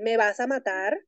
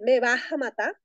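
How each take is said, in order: First: The final r is pronounced as a clear r. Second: The final r is pronounced as a breathy h. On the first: "en vez de decir" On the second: "utilizando esa J aspirada allí"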